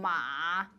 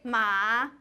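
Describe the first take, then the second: First: The syllable is said in a creaky voice. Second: The syllable is said in a plain voice. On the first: "ma with a creaky voice" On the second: "without a creaky voice"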